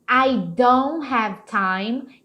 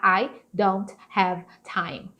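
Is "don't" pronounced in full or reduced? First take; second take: reduced; full. First: The word don't is pronounced reduced. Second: The word don't is pronounced in full. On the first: The speaker calls it right. "esse don't aqui é muito provável dele ganhar esse som de don't" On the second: The speaker calls it wrong. "Eles não vão falar assim"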